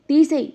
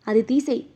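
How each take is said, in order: First: Snapping louder and higher on the repeat; furious repeated command; angry shout. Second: Said in the usual way. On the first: Acted. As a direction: bark the order again. Angry husband repeats demand.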